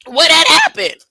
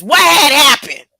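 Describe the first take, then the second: First: Said in the usual way. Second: What had happened with What punched and falling; stress on What. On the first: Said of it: "And then they asked him". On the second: Shown as a demonstration. Preacher relishing the Bible's wording, stressing What. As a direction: lean hard on What as if quoting it word for word. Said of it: "it says it just like that in this Bible".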